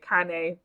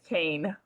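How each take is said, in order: First: The word is pronounced the Italian way. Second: The word is pronounced the American way. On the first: "that's the proper way to say it" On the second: "but the American way is Cane"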